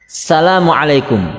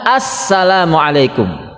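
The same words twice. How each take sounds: First: It starts with plain salam, no doubled s. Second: It starts with as-salam, a doubled s. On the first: The speaker calls it wrong. "Tidak ada alif lamnya" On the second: The speaker calls it right. "Ada alif lam, tasjid, sin"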